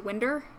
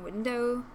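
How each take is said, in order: First: It is said in the local regional pronunciation. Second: It is said in the standard pronunciation. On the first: "people around here say winder, which makes me twitch" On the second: "instead of saying window"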